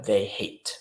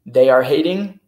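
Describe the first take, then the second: First: Said in the usual way. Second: "They are hating" called out much louder; wrong form, loud. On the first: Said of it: "Vas a ver". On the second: Shown as a demonstration. (grita "They are hating" como forma incorrecta)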